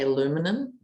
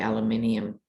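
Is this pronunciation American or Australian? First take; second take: American; Australian. First: It is said with four syllables, ending in -num. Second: It is said with five syllables, ending in -nium. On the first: "For Americans, I think you say aluminum" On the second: "in Australia we say aluminium"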